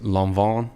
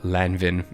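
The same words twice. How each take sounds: First: The name is pronounced with French sounds. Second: The name is pronounced with English sounds. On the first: This is how native French speakers say it. The speaker calls it right. "all my French friends always uh, shout at me. They always say it's Lanvin, something like that" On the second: This is how the speaker himself says it. The speaker calls it wrong. "I remember one time I said uh, Lanvin, and they like butchered me"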